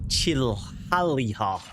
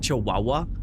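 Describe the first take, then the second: First: It is pronounced letter by letter as written. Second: It is pronounced the usual way, 'chi-wa-wa'.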